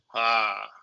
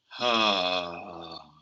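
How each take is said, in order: First: It is voiced as if held back. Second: It is voiced as if held down.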